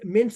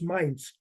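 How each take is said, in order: First: The vowel is short, as in 'pin'. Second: The vowel is long, as in 'mine'. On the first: The speaker calls it right. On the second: The speaker calls it wrong.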